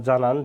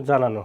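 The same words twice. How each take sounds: First: Said in the usual way. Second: জানানো said as "janano" with a rounded last vowel; teacher's model of জানানো ending in "no"; added o ending. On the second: Shown as a demonstration. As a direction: finish জানানো on a clear o. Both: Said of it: "উকারের মতো হবে".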